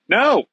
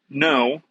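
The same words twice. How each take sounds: First: The word is said at its loudest volume. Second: The word is said at a normal, quiet volume.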